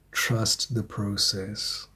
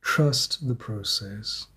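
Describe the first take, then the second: First: Slow, soft reassurance; calm and slow. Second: Calm and slow. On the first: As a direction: lay it down gently like advice. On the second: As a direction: echo it gently, unhurried. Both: Real, not acted. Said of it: "But Spirit is saying".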